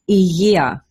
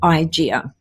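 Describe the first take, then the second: First: The middle consonant is made softly in the throat. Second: The middle consonant is a hard English g. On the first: The speaker calls it right. "it is pronounced υγεία" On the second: The speaker calls it wrong. "as opposed to Igea"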